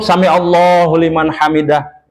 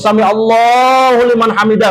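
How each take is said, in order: First: The phrase is said short and quick. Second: The phrase is drawn out and lengthened.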